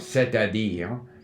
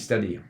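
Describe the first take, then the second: First: Every vowel is pronounced clearly and fully. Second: The vowels are slurred and partly dropped. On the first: "we want to have the clear" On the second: "so that they don't give it full value"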